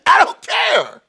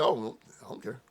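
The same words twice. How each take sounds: First: High, loud mock shout; louder and higher, hammed-up defiance; shouted repeat. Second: Soft, offhand shrug of a line; dismissive mutter. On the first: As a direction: yell it back, laughing it off. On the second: Retold or imitated. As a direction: toss it away quietly, unbothered. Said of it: "When he said it, I said".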